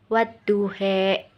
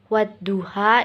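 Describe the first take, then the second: First: The final vowel is tilted toward an 'e' sound. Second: The final vowel is an open 'a' sound. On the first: "menjadi wadduhe" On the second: "yang tadinya wadduha"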